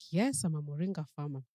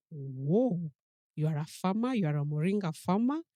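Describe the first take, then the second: First: Said in the usual way. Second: Louder, rising amazed questions, can't believe it; light up with delight at the news; amazed exclamation. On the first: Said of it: "And he's like". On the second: Retold or imitated. Mother amazed to meet a moringa farmer, louder rising questions. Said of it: "I'm like".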